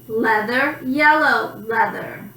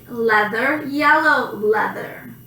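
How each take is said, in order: The two takes are said the same way.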